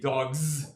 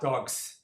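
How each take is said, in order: First: The final sound is a voiced, buzzing z. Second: The final sound is a voiceless, hissing s. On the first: The speaker calls it right. "actually it's voiced" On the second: The speaker calls it wrong. "not dogs"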